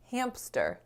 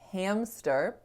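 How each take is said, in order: First: A p sound is inserted after the m. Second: The m goes straight into the s. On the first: The speaker calls it wrong. "You're accidentally inserting a sound right there" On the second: The speaker calls it right. "it won't sound like hamster"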